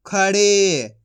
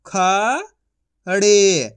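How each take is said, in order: First: Said in the usual way. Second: खा rising long, pause, ड़े; syllable by syllable. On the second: Shown as a demonstration. Teacher sounding out for learners, syllable by syllable. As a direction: split खड़े into two drawn-out sounds. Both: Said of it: "एक एक अक्षर का उच्चारण".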